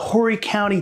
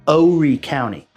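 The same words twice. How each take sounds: First: It is said plainly, without a southern drawl. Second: It is said with a southern drawl. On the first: The speaker is not from around here. The speaker calls it wrong. "when people say that to a local, right away they go, they ain't from around here" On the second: The speaker is from around here. The speaker calls it right. "you have to say it with a little bit of a southern drawl"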